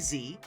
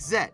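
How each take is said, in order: First: It is the American letter name, zee. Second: It is the British letter name, zed.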